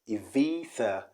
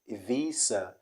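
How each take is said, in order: First: The middle consonant is a soft th sound. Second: The middle consonant is a hissing s sound. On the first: "The B changes to V and the Z changes to Th" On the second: "Ibiza means the Z changes to S"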